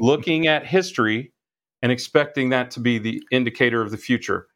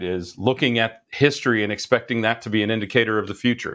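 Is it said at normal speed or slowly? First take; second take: slowly; normal speed. First: It is said slowly. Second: It is said at normal speed.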